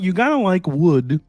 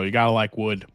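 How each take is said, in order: First: It is said in a put-on puppet-like voice. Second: It is said in the speaker's normal voice.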